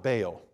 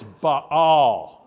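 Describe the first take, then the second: First: "Baal" said as "Bail", one syllable rhyming with mail; wrong pronunciation. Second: "Baal" as two drawn-out syllables, "Bah-al", louder; correct pronunciation. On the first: Pastor showing the congregation the mistaken "Bail". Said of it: "it's not Baal". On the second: Pastor correcting the congregation with the right "Bah-al". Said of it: "It's Baal". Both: Shown as a demonstration.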